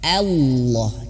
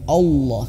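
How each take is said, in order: First: The first vowel is thin and open. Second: The first vowel is thick, sounding like o. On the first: The speaker calls it right. "ketika a-nya tipis" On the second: The speaker calls it wrong. "a nya itu terbawa"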